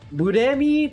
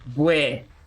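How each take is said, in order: First: Said slowly with a clear r sound. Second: Said fast with the r blurred into w. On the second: "but you speak it fast enough, it becomes Bue"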